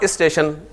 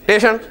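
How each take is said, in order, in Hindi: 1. 'st' समूह से पहले एक 'i' स्वर जोड़ा जाता है। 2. 's' हटा दिया जाता है, और शब्द 't' से शुरू होता है। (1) "इसके शुरू में इसे प्रोनाउंस करने के लिए एक आई लगा लिया" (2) "उन्होंने कहा जी इसे भी गिरा दो"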